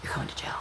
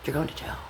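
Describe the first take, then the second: First: Voiceless, softer echo of the threat; warning the accused, dropped to a whisper; whispered repeat. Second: Said in the usual way. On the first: Real, not acted. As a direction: breathe it again as a secret.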